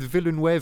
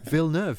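First: The name is pronounced in a Spanish-like way. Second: The name is pronounced in a French way. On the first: The speaker calls it wrong. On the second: The speaker calls it right.

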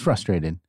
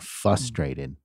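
First: The R after the F is sounded. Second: The R after the F is dropped. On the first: The speaker calls it right. "No, it's frustrated" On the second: The speaker calls it wrong. "people pronounce it without the first R. And they say frustrate or frustrated"

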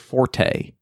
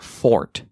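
First: The word is said with two syllables. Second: The word is said with one syllable. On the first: The speaker calls it wrong. "It's not your forte" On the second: The speaker calls it right. "It's your fort"

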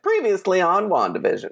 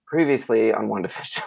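First: It is said with lively energy. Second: It is said in a tired, flat voice.

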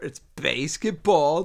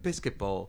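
First: The first part sounds like basket. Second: The first part sounds like biscuit. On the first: The speaker calls it right. "dude, it's basketball. Say basket and ball together" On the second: The speaker calls it wrong. "he's trying to pronounce it back to me, and he calls it fucking biscuitball"

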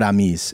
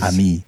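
First: The final s is sounded. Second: The final s is silent. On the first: The speaker calls it wrong. "Sarah's going to kill me for the how I just pronounced that" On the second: The speaker calls it right. "I think the S is"

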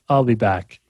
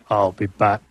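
First: It is said casually, with no real emphasis. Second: It is said with heavy, dramatic emphasis. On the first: It is said as an ordinary remark, not a catchphrase. "there was no emphasis really. It was just kind of casual" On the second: It is said as a famous catchphrase. "When people said it after that, they always say it like it"

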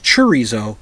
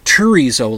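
First: The word is said with a ch sound. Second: The word is said with a t sound. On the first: The speaker calls it right. "with a CH" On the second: The speaker calls it wrong. "like with a T"

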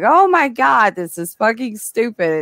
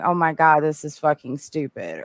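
First: It is said while laughing, sounding amused. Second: It is said flatly, sounding unamused and annoyed. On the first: The film is bad in an enjoyable, hilarious way. "Or are you laughing going" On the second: The film is simply bad and not enjoyable. "Or are you just sitting there going"

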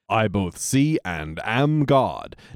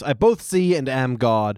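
First: It is said in a dazed, drugged-sounding voice. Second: It is said in a stiff put-on character voice. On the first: The speaker calls it wrong. "Not in a stoned out sort of way at all" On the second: The speaker calls it right. "In a Skinner voice"

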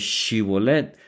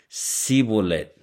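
First: It begins with a 'sh' sound. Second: It begins with an 's' sound.

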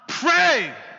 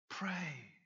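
First: It is said harshly, like a stern command. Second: It is said softly, like a kind invitation. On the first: Prayer is a duty demanded of the listener. The speaker calls it wrong. "not given as a harsh command" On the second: Prayer is a kind invitation offered to the listener. The speaker calls it right. "it's a gentle and gracious invitation"

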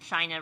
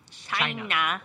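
First: The word is said in an ordinary way. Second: The word is said in an imitated accent. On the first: The speaker calls it wrong. "You pronounced it wrong" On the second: The speaker calls it right. "That's how our president says it"

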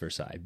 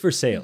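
First: The name has a French pronunciation. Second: The name has an Americanized pronunciation. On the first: This is how the spelling suggests it should sound. "or spelled like it's Versailles" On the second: This is how the locals actually say it. "but it's Versailles"

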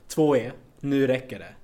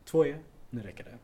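First: The voice is raised to its loudest level. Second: The voice is at its softest level. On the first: "Utan man måste trappa upp den" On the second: "Så nu börjar jag så här"

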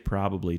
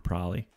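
First: All three syllables are said in full. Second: The word is shortened, dropping a syllable. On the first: The speaker calls it right. "Do say probably" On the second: The speaker calls it wrong. "Don't say probably"

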